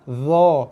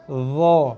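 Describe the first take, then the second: First: The consonant is a voiced th-like sound. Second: The consonant is a voiced th-like sound.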